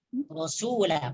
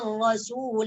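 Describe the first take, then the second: First: The final vowel is drawn out long. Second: The final vowel is short, running on. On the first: The reciter stops on this word. "panjang sunya" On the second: The reciter continues into the next word. "maka la di sini tak panjang lagi"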